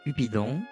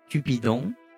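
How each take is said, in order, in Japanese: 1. 速いテンポで言われている。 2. ゆっくり丁寧に言われている。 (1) "じゃあこれテンポ上げてお願いします。" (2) "じゃあこれむしろゆっくり話します。"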